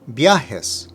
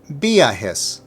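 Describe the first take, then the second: First: The emphasis falls on the A, not the I. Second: The emphasis falls on the I, not the A. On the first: The speaker calls it right. "Now the correct one" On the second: The speaker calls it wrong. "Incorrect pronunciation"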